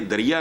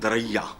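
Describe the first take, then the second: First: The middle syllable is a short 'ri'. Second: The middle syllable is a long 'rai'. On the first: The speaker calls it wrong. "ये दरिया नहीं है" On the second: The speaker calls it right. "इसको pronounce करते हैं दरैया"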